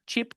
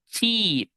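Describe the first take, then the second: First: Chip with a short, lax "ih". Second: Cheap with a long drawn "ee". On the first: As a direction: keep the vowel in chip brief. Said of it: "lleva una I corta". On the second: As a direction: stretch the vowel in cheap. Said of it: "I larga". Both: Shown as a demonstration.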